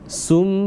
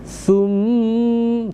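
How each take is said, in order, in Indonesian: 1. Bunyi s itu keras dan berat. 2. Bunyi s itu tipis dan lembut. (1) "Sum bukan" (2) "tapi sum tipis, lembut"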